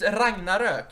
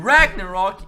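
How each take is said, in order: First: "Ragnarök" with Swedish ö in the last syllable; Swedish pronunciation. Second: "Ragnarok" loud, English vowels ending in -rock; English pronunciation. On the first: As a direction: insist on "Ragnarök" as Swedes say it. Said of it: "it's Ragnarök". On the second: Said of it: "It's not Ragnarok". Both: Shown as a demonstration.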